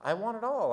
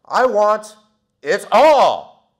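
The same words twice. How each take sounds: First: Said in the usual way. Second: Much higher, much louder I want it all; loud declaration. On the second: Retold or imitated. Teen finishing his order at the counter, shouting it out. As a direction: belt out the final demand. End of a long sandwich order.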